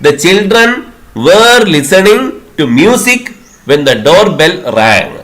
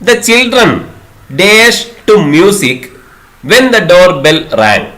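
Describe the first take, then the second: First: Were lifted and leaned on, slowly; slow reading with were stressed. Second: Slow exam-question reading, blank left open. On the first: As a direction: hit were as the filled-in answer. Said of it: "C എന്ന option ആണ് ശരിയായിട്ടുള്ളത്, were listening". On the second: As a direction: read the gap sentence very slowly. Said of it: "കേട്ടുകൊണ്ടിരിക്കുകയായിരുന്നു എന്നതാണ് ഇതിൽ ചേർക്കേണ്ടത്". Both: Shown as a demonstration.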